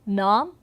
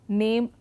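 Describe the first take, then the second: First: It has the older, medieval vowel sound. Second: It has the modern vowel sound. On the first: This is how it was said in medieval times. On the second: This is how it is said today.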